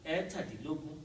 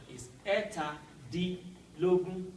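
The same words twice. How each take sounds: First: "Ẹ̀tàdínlógún" run together as one word with Yoruba tones; combined Yoruba pronunciation. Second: "ẹ̀ta dín lógún" said in separate parts, each word given its own tone; broken-down pronunciation. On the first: Teacher showing learners "Ẹ̀tàdínlógún" combined. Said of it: "in that Yoruba way with the intonation". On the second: Teacher showing Yoruba learners "ẹ̀ta dín lógún" in parts. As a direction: split "ẹ̀ta dín lógún" into its pieces, rising at "lógún". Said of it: "when you break it down". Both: Shown as a demonstration.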